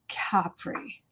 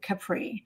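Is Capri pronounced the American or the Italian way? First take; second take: Italian; American. First: It is said with an Italian pronunciation. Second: It is said with an American pronunciation. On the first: "Is that the Italian pronunciation?" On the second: "we say Capri"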